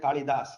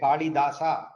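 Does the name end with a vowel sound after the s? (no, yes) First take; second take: no; yes. First: The name ends on the s sound. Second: The name ends with a vowel after the s. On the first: "I don't say Kalidas" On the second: "I'm pronouncing in Sanskritic way"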